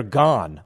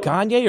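First: Gane said as GAHN; one-syllable pronunciation. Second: Gane said as GAHN-yay; two-syllable pronunciation. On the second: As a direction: pronounce Gane with an added "yay" ending. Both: Shown as a demonstration. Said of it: "I've heard it pronounced both ways".

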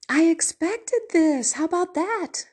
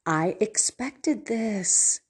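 First: Amused stepson. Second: Mild knowing stepson, slowed right down; resigned stepson. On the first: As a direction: play up the irony of seeing it coming. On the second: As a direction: let it land slowly, like he saw it coming. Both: Retold or imitated. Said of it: "And so he said".

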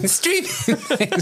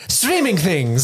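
First: High, slow silly voice through a laugh. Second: Slow, drawn-out silly voice. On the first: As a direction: drag it out high while cracking up. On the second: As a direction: stretch it out in a goofy put-on voice. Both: Pretend. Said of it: "Do the voice".

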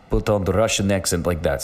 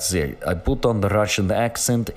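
First: Said in the usual way. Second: Same line redone in a put-on Russian accent. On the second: Shown as a demonstration. Podcaster showing listeners his Russian accent, mock Russian accent.

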